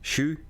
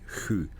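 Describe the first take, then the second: First: The word starts with a sh-like sound. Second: The word starts with an h-like sound. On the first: The speaker is from north of Stockholm. "anything north from Stockholm, they will say Shu" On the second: The speaker is from Stockholm or further south. "anywhere from Stockholm and south, it will be Hu"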